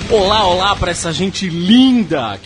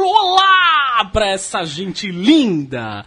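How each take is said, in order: First: It is said with little energy. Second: It is said with lots of energy.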